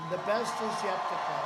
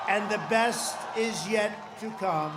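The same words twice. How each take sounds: First: Said in the usual way. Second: Shouted, BEST hit hard; loud rally shout. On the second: Real, not acted. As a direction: belt it to the crowd. Rally climax line.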